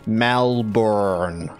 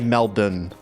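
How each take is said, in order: First: It is said in an American accent. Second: It is said in an Australian accent.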